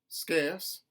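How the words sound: The R sound is dropped. "a general Southern dropped R"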